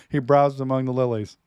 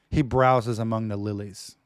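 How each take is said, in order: First: Browses leaned on, louder, with a falling tune; stress on browses. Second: Said in the usual way. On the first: Shown as a demonstration. Repeating the verse for his listeners, browses stressed. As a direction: punch the word browses. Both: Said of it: "Like the emphasis in there".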